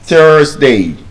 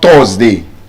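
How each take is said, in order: First: The vowel is said with a long R sound. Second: The vowel is said without a long R sound. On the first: The speaker calls it right. "R sound" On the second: The speaker calls it wrong. "It's not"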